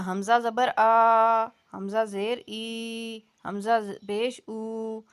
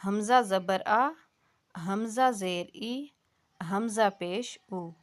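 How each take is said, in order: First: Put-on حمزہ زبر آ in the old majhool style, vowels drawn out; مجہول طریقہ. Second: حمزہ زبر آ read gently, no jolt, pure vowel; آرام سے نرمی سے; soft correct hamza. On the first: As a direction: say it the wrong majhool way, as elders read it. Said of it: "یہ مجہول طریقہ کار تھا". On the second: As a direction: read it calmly and softly, the correct way. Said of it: "آرام سے نرمی سے پڑھنا ہے". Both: Shown as a demonstration.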